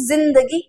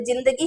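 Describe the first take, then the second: First: जिंदगी with a buzzing z, zindagi; Urdu z. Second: जिंदगी with a hard j, no buzz; plain j. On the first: Teacher showing how Urdu speakers said it, जिंदगी with buzzed z. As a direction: open जिंदगी on a z. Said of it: "वो बोलते थे". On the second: Teacher showing what starting with ज gives, जिंदगी with plain j. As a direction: say जिंदगी as jindagi. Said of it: "ज से शुरू करते हैं तो". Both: Shown as a demonstration.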